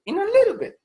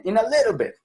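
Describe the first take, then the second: First: "little" squeaked very high and loud, then falling; exaggerated high "In a little bit"; very high pitch. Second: "little" said higher and louder, then falling; English "In a little bit" said high; high-pitched little bit. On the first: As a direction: jump way up on "little". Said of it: "uno sube la frecuencia fundamental". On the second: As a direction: raise the pitch on "little" and drop it. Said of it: "fíjense cómo cuando uno dice eso". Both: Shown as a demonstration.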